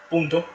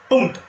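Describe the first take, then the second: First: The P is released softly. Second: The P is released with a strong burst. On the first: "con la P, punto, más suave" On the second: "lo saben pronunciar mucho más fuerte"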